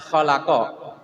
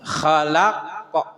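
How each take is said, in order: First: The word ends with a final vowel after q. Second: The word ends on an echoing, bounced q. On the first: This is the word's original form. "kan asalnya khalaqo" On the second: The reader stops on this word. "Diwakaf jadi khalaqo"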